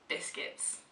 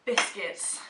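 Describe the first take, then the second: First: Whispered. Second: Announced. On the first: Echoing the word softly. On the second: Announcing the word. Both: Acted.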